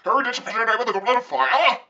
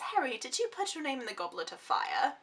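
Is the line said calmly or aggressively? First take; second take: aggressively; calmly. First: It is said in an aggressive, agitated way. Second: It is said in a calm, gentle way.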